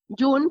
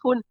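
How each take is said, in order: First: It starts with a soft English J sound. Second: It starts with a harsh throaty Spanish J sound. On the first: The speaker calls it wrong. "Decimos June porque evidentemente es un mes en inglés" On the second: The speaker calls it right. "sí es Jun"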